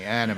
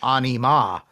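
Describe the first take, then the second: First: It is pronounced the English way. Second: It is pronounced the Norwegian way. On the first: The speaker calls it right. "excuse me" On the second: The speaker calls it wrong. "I was doing the Norwegian pronunciation"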